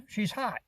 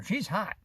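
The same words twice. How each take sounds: First: "hot" leaned on, quiet mock remark; she's hot, stress on hot. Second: "She's" leaned on, quiet mock remark; she's hot, stress on she's. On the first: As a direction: land on "hot", softly. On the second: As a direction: land on "She's", softly. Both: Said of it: "Like that".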